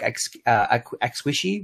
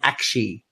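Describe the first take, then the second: First: The word is said with three syllables, like 'a squishy'. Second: The word is said with two syllables, 'ak-shee'. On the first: The speaker calls it wrong. "the way you pronounce it is not as in a hug, like ex-wishy" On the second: The speaker calls it right. "It's called Akshi"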